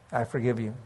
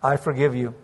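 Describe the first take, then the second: First: Much softer I forgive you, almost gone; barely voiced forgiveness; fading forgiveness. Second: Gentle forgiveness. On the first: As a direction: let I forgive you die away. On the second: Retold or imitated. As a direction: say it low and tender.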